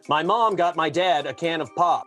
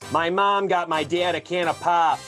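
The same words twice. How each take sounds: First: It is said in a general American accent. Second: It is said in a Cleveland accent.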